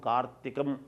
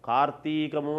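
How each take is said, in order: First: The word is kept short, ending in 'm'. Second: The word is drawn out, ending in 'mu'. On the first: The speaker calls it right. "అనాలి" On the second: The speaker calls it wrong. "దీర్ఘం అనకూడదు"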